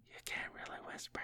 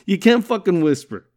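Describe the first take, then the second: First: Barely audible, voiceless whisper. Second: Said in the usual way. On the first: Shown as a demonstration. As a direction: whisper it right into the listener's ear. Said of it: "This ain't no fucking A S M R".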